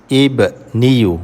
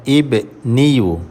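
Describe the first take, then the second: Both takes have the same delivery.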